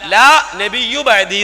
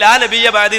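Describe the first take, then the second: First: The middle word ends with a 'u' vowel. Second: The middle word ends with an 'a' vowel. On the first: A prophet named La will come after me. "ലാ നബിയ്യു ബഅദി എന്നാണ്" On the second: There will be no prophet after me. "നബി പറഞ്ഞു ലാ നബിയ്യ ബഅദി എന്നല്ല"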